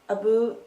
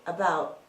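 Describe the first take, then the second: First: The vowel sounds like 'oo', as in 'aboot'. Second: The vowel sounds like 'ow', as in 'about'. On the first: This is how some people imagine Canadians say it. "people saying ooh, abu. I don't say that" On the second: This is how most Canadians actually say it. "I say out, about"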